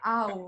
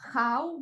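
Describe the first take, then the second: First: The word begins without an h sound. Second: The word begins with an h sound. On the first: "the ow" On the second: "but they do not pr pronounce H"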